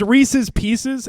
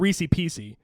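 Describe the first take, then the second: First: Both words end with a full 's' sound. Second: The 's' endings are dropped, ending in 'ee'. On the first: The speaker calls it right. "it's it's Reese's Pieces" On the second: The speaker calls it wrong. "they pronounce them Reese Piecey"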